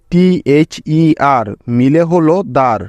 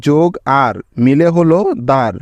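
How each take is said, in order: First: Teacher showing how টিএইচইআর becomes দার; slow spelling demo. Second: Said in the usual way. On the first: Shown as a demonstration. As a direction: spell out টিএইচইআর slowly, then land on দার. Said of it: "সেখানেই তাকে উচ্চারণ করবে দার, এভাবে". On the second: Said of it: "উচ্চারণ করবে দার".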